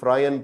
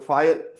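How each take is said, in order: First: It starts with 'fr' followed by 'eye'. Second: It starts with 'f' followed directly by 'eye'. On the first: The speaker calls it wrong. "कोई फ्रायन पढ़ रहा है" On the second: The speaker calls it right. "ये होती है फायन"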